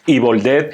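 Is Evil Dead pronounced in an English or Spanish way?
English. The title is said with English-style sounds. This is the proper pronunciation. The speaker calls it right. "vamos a intentar pronunciarlo bien"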